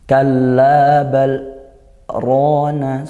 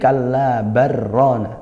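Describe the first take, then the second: First: A brief breathless stop comes after bal. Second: It runs straight on, the l merging into r. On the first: The speaker calls it right. "berhenti sejenak, sekedar satu alif tanpa disertai nafas" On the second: The speaker calls it wrong. "kalau tidak dibaca saktah ... kalla barrona, langsung idgham"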